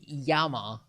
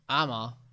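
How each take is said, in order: First: The word begins with a Y sound. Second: The word begins directly with a vowel. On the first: "you can say Yama, but that's Spanish" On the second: "Maybe you skip it and you go like ama"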